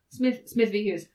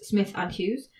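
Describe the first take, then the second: First: The middle word is said as 'v'. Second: The middle word is said as 'and'. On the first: The speaker calls it wrong. "if you say it wrong in court" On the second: The speaker calls it right. "when I said the name of that case was Smith and Hughes"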